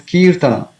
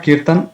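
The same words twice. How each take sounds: First: "Kirtana" with the final a sounded; three-syllable "Kirtana", long ee; full final vowel. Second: "Kirtan" ending on the n; everyday "Kirtan" without final a; dropped final vowel. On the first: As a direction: finish "Kirtana" on an open -na. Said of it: "it is Kirtana". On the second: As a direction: cut "Kirtan" off at the n. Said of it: "It's not Kirtan". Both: Shown as a demonstration.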